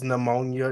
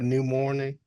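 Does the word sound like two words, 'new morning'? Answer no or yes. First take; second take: no; yes. First: It is said as one word, 'pneumonia'. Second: It is said as two words, 'new morning'. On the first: The speaker calls it right. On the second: The speaker calls it wrong.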